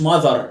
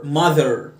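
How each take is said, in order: First: Mother said "ma-thar"; wrong mother with "ar" for "er"; mistaken AR ending. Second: Mother said "MUH-ther", falling; correct ER ending. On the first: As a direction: end mother on a full "ar". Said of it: "ما تقولش". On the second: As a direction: end mother on a low "err". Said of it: "ال إي آر اعمل إر". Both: Shown as a demonstration.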